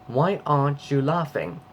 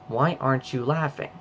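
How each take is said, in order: First: It is spoken in a British accent. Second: It is spoken in an American accent. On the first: "Now let's say it in a British accent" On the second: "That's the American accent"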